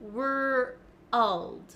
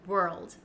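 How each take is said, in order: First: The word is split into two syllables. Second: The word is said smoothly as one syllable. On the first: "break down the word and say were first, and then to get the L sound" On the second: "as a native speaker, um, I don't think about it and it just comes naturally"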